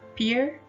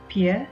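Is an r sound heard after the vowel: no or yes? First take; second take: yes; no. First: It ends with a clear r sound. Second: It ends on the vowel with no r. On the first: "Unlike American English" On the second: "British speaker pronounces them without the phoneme r"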